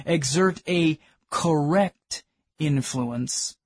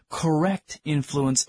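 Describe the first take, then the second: First: "correct influence" drawn out slowly and weighted; stress on correct influence. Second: Said in the usual way. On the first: Shown as a demonstration. Preacher to the congregation, "correct influence" slow and stressed. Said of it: "I'll emphasize the word correct influence". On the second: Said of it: "I'll emphasize the word".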